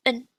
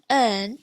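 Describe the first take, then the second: First: En clipped short, not a long earn. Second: Said in the usual way. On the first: Shown as a demonstration. Teacher contrasts short en with long earn. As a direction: cut en short, no drawn-out vowel. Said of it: "it's en". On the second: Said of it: "so instead of earn".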